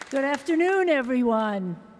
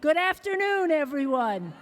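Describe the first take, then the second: First: It is said plainly, with little feeling. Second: It is said with more feeling and energy.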